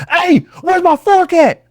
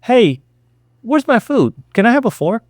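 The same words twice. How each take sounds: First: High, drawn-out holler; loud demand. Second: Higher, polite and casual asking; calm request. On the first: Customer making a scene over a fork, high yelled demand. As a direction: yell it so everyone stops. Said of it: "But the minute you're like". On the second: Customer whom nobody notices, calm polite request. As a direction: ask lightly, with no demand in it. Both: Shown as a demonstration.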